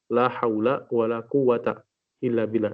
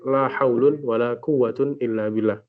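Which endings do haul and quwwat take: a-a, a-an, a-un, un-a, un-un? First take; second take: a-a; un-un. First: Both nouns end in a short a. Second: Both nouns end in un. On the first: "jadi difathahkan kedua-duanya" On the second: "kalimat setelah la itu dirafa'kan"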